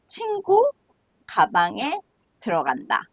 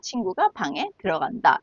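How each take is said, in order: First: The break comes after 친구, before 가방에. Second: The break comes after 친구가, before 방에. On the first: Something is going into a friend's bag. "if you pause at different places" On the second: A friend is going into the room. "is the correct way"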